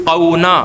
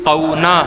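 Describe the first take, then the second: No difference in how they are said.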